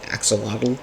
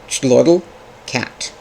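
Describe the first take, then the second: First: It is said with the usual English pronunciation. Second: It is said with a Nahuatl-style pronunciation. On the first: This is how most English speakers say it. The speaker calls it wrong. "in most English parlance, we say axolotl" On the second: This is how speakers of the source language say it. The speaker calls it right. "I believe it is pronounced Chlodl Cat"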